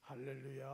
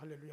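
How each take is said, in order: First: It is said at a normal speed. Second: It is said very fast.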